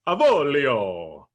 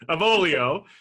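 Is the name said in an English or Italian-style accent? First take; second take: Italian; English. First: It is said in a put-on Italian-style accent. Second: It is said in a plain English accent. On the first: "pull out my little quasi Italian accent" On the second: "we don't have to quite say it like that"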